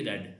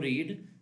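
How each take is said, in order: First: The vowel is short, like 'red'. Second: The vowel is long, like 'reed'. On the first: It is the past form of the verb. "Second को रेड" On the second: It is the present form of the verb. "First form को रीड"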